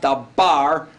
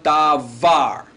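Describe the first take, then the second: First: The middle consonant is a hard B sound. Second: The middle consonant is a soft V sound. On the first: The speaker calls it wrong. "It's not dabar" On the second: The speaker calls it right. "but davar. Hear the V sound?"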